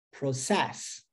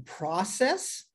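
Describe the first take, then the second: First: Pro-CESS, weight on "cess"; stress on last syllable. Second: PRO-cess, slow and rising at the end; stress on first syllable. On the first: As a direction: demonstrate "process" stressed at the end. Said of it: "na última sílaba". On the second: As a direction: demonstrate "process" stressed on "pro". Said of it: "Olha que legal". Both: Shown as a demonstration.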